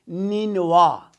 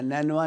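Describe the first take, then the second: First: The first syllable has the vowel 'ee'. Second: The first syllable has the vowel 'ai'. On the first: The speaker calls it right. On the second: The speaker calls it wrong.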